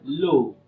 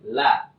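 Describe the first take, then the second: First: The sound is thick with a rounded vowel. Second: The sound is thin with an open vowel. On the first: The speaker calls it wrong. "Jangan pernah membaca lo" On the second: The speaker calls it right. "huruf lam itu tipis"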